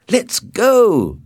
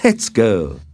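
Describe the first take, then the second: First: High, loud call to get going; impatient cry. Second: Said in the usual way. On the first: A narrator's reading. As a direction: cry it out eagerly, much higher. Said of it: "he cried". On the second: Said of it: "he said".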